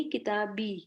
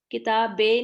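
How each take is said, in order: First: کتابی with a clear ee at the end; کتابی, kasra as ee; correct i sound. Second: کتابیں ending in e, the mistake; کتابیں, majhool e ending; wrong e sound. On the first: Shown as a demonstration. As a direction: model it: کتابی ending in pure i. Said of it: "کتابیں نہیں". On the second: Retold or imitated. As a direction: imitate the error: کتابیں with long e. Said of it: "نہیں".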